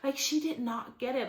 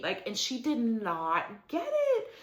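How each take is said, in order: First: "she" lifted and pushed, rest plain; stress on she. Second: "it" weighted at the end, falling; stress on it. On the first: Retelling the episode to viewers, leaning on "she". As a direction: punch "she" before the phrase. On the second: Retelling the episode to viewers, landing on "it". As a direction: lean on "it" and let it drop. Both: Shown as a demonstration. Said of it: "repeated with shifted emphasis".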